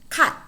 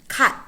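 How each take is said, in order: The two takes are said the same way.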